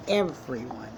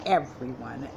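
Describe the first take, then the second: No difference in how they are said.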